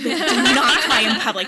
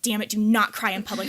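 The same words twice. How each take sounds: First: Much louder, hammed-up order to self; mock frantic shout. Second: Louder, exasperated retold order to self; mildly stern mock telling-off; mock self-scolding. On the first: Yoga student orders herself not to cry, mock shouting. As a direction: escalate into a comic self-scolding yell. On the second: Yoga student orders herself not to cry, mock scolding.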